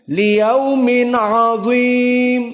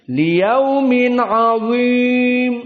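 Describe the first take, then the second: Both takes have the same delivery.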